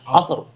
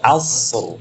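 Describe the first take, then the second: First: The s sound is light and thin. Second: The s sound is heavy and thick. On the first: The speaker calls it wrong. "jangan terbaca sin" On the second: The speaker calls it right. "bukan asr"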